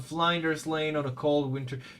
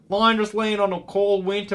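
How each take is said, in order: First: It is read in the speaker's normal accent. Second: It is read in an attempted Australian accent.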